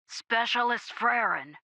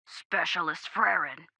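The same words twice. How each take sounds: First: Higher, slower gruff repeat call; drawn-out gruff radio call; gruff sergeant, insistent. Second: Softer, gruff voice over comms; understated gruff radio call; gruff sergeant. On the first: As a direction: call the soldier more pointedly, gruffly. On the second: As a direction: gruffly call the soldier by rank. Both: A narrator's reading. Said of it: "The gruff voice came again".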